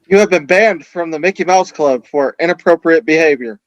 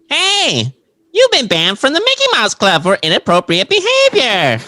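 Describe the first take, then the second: First: It is said in a normal voice. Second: It is said in a SpongeBob voice.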